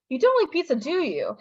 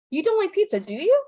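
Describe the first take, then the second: First: "don't" punched high, "do you" falling as if sure; confirming tag, "do you" going down; falling negative tag. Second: "don't" punched high, "do you" rising as a real question; unsure check, "do you" going up; rising negative tag. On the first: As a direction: DO YOU drops at the end. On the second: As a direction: DO YOU lifts high at the end. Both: Shown as a demonstration. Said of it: "All of those mean something completely different".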